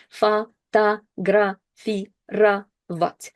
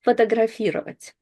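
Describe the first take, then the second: First: Фотографировать very slowly, every O said as ah; akanye demo. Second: Фотографировать at normal pace, O's reduced to a; normal-pace model. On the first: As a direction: stretch Фотографировать out, all O's as a. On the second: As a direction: then Фотографировать at normal speed. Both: Shown as a demonstration. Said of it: "you only pronounce ah sounds all the way".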